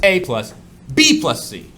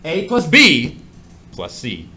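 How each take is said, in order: First: "A plus" first, then a pause and a loud "B plus C"; group "B plus C" by emphasis; stress on B plus C. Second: Group "A plus B" by emphasis; stress on A plus B. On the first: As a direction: punch out "B plus C" together. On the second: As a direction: punch out "A plus B" together. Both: Shown as a demonstration. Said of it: "It's all about emphasis".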